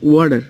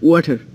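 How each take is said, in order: First: It is said in an American accent. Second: It is said in a British accent.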